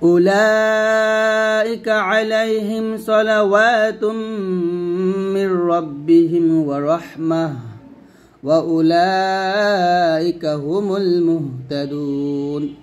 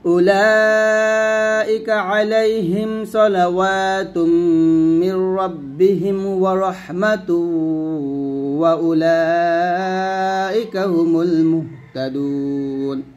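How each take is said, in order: First: It pauses after the middle phrase. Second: It runs straight through without pausing. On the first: "আমি এখানে থামছি" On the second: "মিলিয়ে পড়লে কীরকম হবে?"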